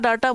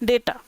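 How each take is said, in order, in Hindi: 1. पहला स्वर 'ah' जैसा सुनाई देता है। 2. पहला स्वर 'ay' जैसा सुनाई देता है। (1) "कुछ बच्चे डाटा डाटा बोलते हैं, डाटा नहीं होता" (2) "डेटा बोलते हैं"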